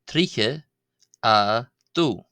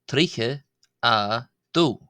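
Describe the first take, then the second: The two takes are said the same way.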